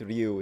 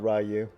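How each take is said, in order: First: The name is said with a Japanese pronunciation. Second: The name is said with an English pronunciation. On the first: The speaker calls it right. "It's Japanese. It's not English" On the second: The speaker calls it wrong. "it's not"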